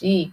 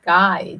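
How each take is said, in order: First: It sounds like the 'chi' in 'tai chi'. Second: It starts with a k sound and rhymes with 'eye'. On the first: The speaker calls it right. "It's chi. Like like chi in Tai Chi" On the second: The speaker calls it wrong. "It's not Kai"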